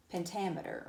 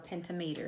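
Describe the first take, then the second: First: Pentameter said pen-TAM-eter, stress on TAM; stress on second syllable. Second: Pentameter said penta-METER, like penta plus meter; alternative pronunciation. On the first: Teacher naming the meter for students, pentameter stressed on the second syllable. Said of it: "or pentameter, if you want to think of it that way". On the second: Teacher offering students another way to see the word, pentameter said penta-meter. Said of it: "if you want to think of it that way". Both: Shown as a demonstration.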